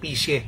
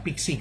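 First: The middle consonant sounds like 'sh'. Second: The middle consonant sounds like 'ks'. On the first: The speaker calls it right. "Pero ang basa ron, pishe, hindi pixie" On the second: The speaker calls it wrong. "Pixie, kasi P-I-X-I-E"

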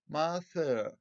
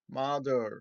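First: British accent, soft th, final r dropped. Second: American accent, th sounds like d, r pronounced. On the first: "biz daha çok British İngilizce yakın bir ses setimi kullanacağız. Dolayısıyla mother" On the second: "Onlar biraz daha şu TH'yi de D'ye çevirip mother"

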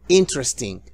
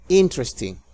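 The two takes are said the same way.

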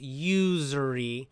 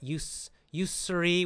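First: The middle consonant is a buzzing z sound. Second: The middle consonant is a soft s sound. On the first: The speaker calls it right. "American pronunciation is usury. So it's got that z" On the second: The speaker calls it wrong. "Not usury with an s, soft s, is not American"

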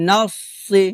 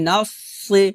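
No difference in how they are said.

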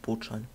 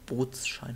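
First: No s sound links Boot and Schein. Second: An s sound links Boot and Schein. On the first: The speaker calls it wrong. "Und nicht Bootschein" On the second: The speaker calls it right. "Bootsschein heißt er, oder?"

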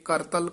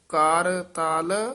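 First: It is said as one joined word. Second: It is said as two separate words. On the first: The speaker calls it wrong. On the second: The speaker calls it right.

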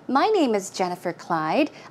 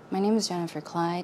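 First: It is spoken clearly and loudly. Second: It is mumbled quietly in a low voice. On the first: "if I want to speak clearly and loudly" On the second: "I am going to mumble, so listen carefully"

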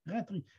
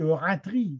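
First: The final i vowel is small and reduced. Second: The final i vowel is full and broad. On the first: The speaker calls it right. "c'est des petits i, ce n'est pas des gros i" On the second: The speaker calls it wrong. "ce n'est pas comme ça"

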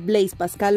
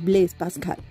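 First: The name is said with Spanish sounds. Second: The name is said with French sounds. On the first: The speaker calls it wrong. "estamos acostumbrados a decir Blaise Pascal, lo cual es un error" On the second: The speaker calls it right. "Su pronunciación correcta es Blaise Pascal"

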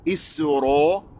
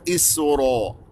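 First: The vowel after the r is rounded. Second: The vowel after the r is rounded.

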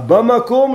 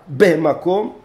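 First: The first vowel is an open 'a'. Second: The first vowel is a short 'e'. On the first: It means in the specific, definite place. "б пришло взамен хей определенного" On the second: It means in a place, not a specific one. "может писаться со шва"

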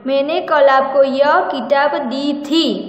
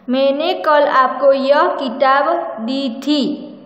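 First: The words दी थी are stressed. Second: The word किताब is stressed.

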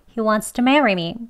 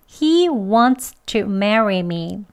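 First: Wants to is slightly reduced with an s-like sound. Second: Every sound of wants to is fully pronounced. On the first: "공기 살짝 새어 나가게요. 스소리 들어갑니다. 조금 빨리 할게요" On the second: "그대로 발음 다 합니다"

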